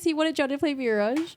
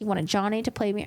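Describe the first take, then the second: First: It is read in a mocking, trolling tone. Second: It is read in a serious, earnest tone. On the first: The message is a joke meant to troll. The speaker calls it right. "in a very trolly tone" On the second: The message is taken at face value. The speaker calls it wrong. "I read it with such a serious tone"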